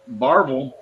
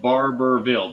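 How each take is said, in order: First: The name is shortened with a middle syllable dropped. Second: The name is said in full with every syllable.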